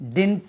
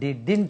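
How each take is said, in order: First: The middle d sound is dropped. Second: The middle d sound is clearly heard. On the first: The speaker calls it wrong. "डिंट नहीं होता है" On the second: The speaker calls it right. "डी डिंट होता है"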